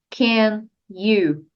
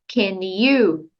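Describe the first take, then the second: First: The two words are said separately, not joined. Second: The two words are joined into one flowing sound. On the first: The speaker calls it wrong. "Não diga apenas can you" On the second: The speaker calls it right. "junte can com you"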